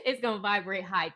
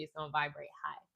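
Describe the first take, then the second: First: Laughing. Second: Said in the usual way. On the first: Real, not acted.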